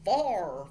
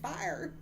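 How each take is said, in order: First: It is said with a Southern drawl, like far. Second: It is said plainly with a clear two-part vowel. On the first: "this guy with a southern accent" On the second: "He was saying fire"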